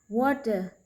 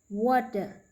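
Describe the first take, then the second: No difference in how they are said.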